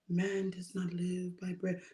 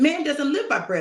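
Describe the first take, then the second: First: It is said weakly, without force. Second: It is said strongly, with force. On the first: The words carry no conviction. The speaker calls it wrong. "I know Jesus wasn't saying" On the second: The words carry conviction and authority. The speaker calls it right. "He said it with some strength"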